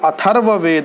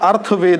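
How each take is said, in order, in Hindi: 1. r ध्वनि th ध्वनि के बाद आती है। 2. r ध्वनि th ध्वनि से पहले आती है। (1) "वो अथर्ववेद है" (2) "ज़्यादातर बच्चे अर्थवेद बोलते हैं, आप अर्थवेद न बोला करें"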